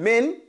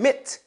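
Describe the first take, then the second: First: The n sound is pronounced fully and clearly. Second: The n sound is dropped into the next sound. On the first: "Instead of saying min" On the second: "without saying mit"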